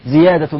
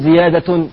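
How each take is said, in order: First: The word ends without an added 'n' sound. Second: The word ends with an added 'n' sound. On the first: The speaker calls it right. "بلا تنوين" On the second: The speaker calls it wrong. "لا تقل زيادة"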